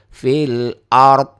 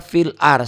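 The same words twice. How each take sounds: First: "Fil ard" with the final d sounded, a bit louder; correct pronunciation. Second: "fil ar" with the final d dropped; the mistaken "ar" that swallows the d; wrong pronunciation. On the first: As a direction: land the final d of "ard" firmly. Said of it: "jadi fil ard". ("ard" dengan d yang jelas) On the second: ("ar" tanpa huruf d, salah) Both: Shown as a demonstration.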